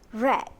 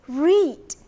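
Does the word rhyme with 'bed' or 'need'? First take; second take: bed; need. First: The vowel is short, rhyming with bed. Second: The vowel is long, rhyming with need. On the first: It is the past participle of the verb. "the past participle for read is read" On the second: It is the base form of the verb. "The base verb is read"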